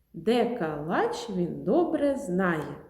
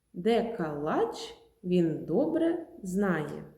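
Both takes have the same delivery.

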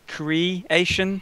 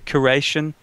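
First: The first syllable sounds like 'cray'. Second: The first syllable sounds like 'cur'. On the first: "we don't say creation" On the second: "We say curation. C-U-R"

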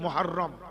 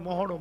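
First: It starts with 'mu' and has a doubled r. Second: It starts with 'mo' and has a single r. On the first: The speaker calls it right. "উচ্চারণ হলো মুহাররম" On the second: The speaker calls it wrong. "আমরা বলি মহরম, মহরম নয়"

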